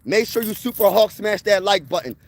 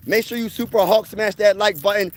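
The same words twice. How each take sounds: The two takes are said the same way.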